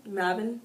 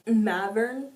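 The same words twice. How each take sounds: First: Mavin said MAV-in with no r; the fix Mavin, short plain ending; Mavin, a light -in ending, rising; corrected name. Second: Mavern said MAV-ern with an r in the last syllable; the slip Mavern, r-coloured ending; wrong name slip. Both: Real, not acted. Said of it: "why did I say Mavern?".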